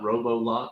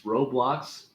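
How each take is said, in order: First: It is said with three syllables, an extra vowel. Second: It is said with two syllables, no extra vowel. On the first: The speaker calls it wrong. "not Robolox" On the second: The speaker calls it right. "there is no O between the B and the L"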